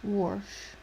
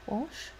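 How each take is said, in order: First: "Wash" with an R before the sh; regional "warsh" pronunciation. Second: Said in the usual way. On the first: Shown as a demonstration. Guessing where a familiar word comes from, intrusive-R pronunciation. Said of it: "I'm guessing Pennsylvania". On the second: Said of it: "Why does that sound familiar?".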